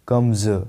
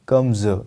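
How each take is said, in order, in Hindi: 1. यह शब्द गुंजन वाली z ध्वनि से खत्म होता है। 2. यह शब्द गुंजन वाली z ध्वनि से खत्म होता है।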